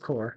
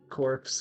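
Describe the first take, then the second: First: The word ends without any s sound. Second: The word ends with a ps sound. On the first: The speaker calls it right. "It's core" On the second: The speaker calls it wrong. "the word no one can say right"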